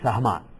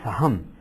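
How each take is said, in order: First: The word ends with a final vowel sound. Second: The word ends with a consonant, vowel dropped. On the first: The speaker calls it right. "actual word is Sahama" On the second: The speaker calls it wrong. "people call them Saham"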